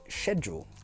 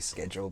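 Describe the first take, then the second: First: The word has a British pronunciation. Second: The word has an American pronunciation. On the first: "we pronounce it schedule" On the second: "You're becoming an American"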